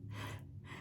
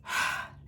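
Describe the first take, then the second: First: Faint, quiet breath out; barely audible release of air; soft airy exhale. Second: Quick voiced sigh out; a brief sigh, not the right way; short sighing exhale. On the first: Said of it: "but it is more like". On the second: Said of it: "So it's not like a". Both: Shown as a demonstration.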